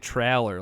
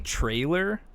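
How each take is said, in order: First: The first part sounds like the word 'trail'. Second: The first part sounds like the word 'tray'. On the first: "like trail" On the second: "like tray"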